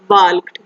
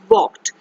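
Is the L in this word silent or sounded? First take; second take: sounded; silent. First: The L sound is pronounced in the word. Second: The L sound is left out of the word. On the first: The speaker calls it wrong. "we will not pronounce this word as walked" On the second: The speaker calls it right. "We pronounce it as walked"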